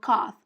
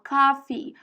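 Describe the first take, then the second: First: The word ends without a final vowel sound. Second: The word ends with a final vowel sound. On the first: The speaker calls it wrong. "Não é assim que você fala" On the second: The speaker calls it right. "você fala coffee. Tem dois E's no final"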